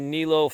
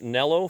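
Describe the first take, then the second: First: The first vowel is long, like 'knee'. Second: The first vowel is short, like 'net'. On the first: This is the speaker's usual pronunciation. The speaker calls it wrong. "please, people in Europe, stop screaming at me" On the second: This is the pronunciation people in Europe prefer. The speaker calls it right. "I'll pronounce it Nello for you"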